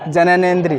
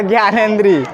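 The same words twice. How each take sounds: First: जननेंद्री said carefully as jananendri, the right term; correct word. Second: ज्ञानेंद्री said as gyanendri, imitating a student's mistaken answer; wrong word. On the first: Shown as a demonstration. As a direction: clearly say जननेंद्री with jana- at the start. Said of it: "इसको ज्ञानेंद्री नहीं पढ़ना भाई". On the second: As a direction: lightly mimic a pupil saying ज्ञानेंद्री by mistake. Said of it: "तो उसमें बच्चा क्या बोल रहा है".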